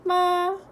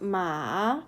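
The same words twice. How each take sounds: First: It has the first tone, high and level. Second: It has the third tone, dipping then rising. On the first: "the first tone is ma" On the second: "the third is ma"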